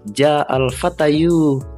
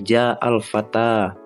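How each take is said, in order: First: The last word ends with an extra yu syllable. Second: The last word ends on a plain a vowel. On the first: The speaker calls it wrong. "Bacanya bukan" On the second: The speaker calls it right. "Jadi fata fata fata semua"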